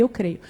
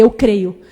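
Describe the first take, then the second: First: Said in the usual way. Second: "Eu creio" said louder and firmer; a granddaughter firmly answering "Eu creio" to her grandmother; firm affirmation. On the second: Retold or imitated. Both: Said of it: "Eu falei".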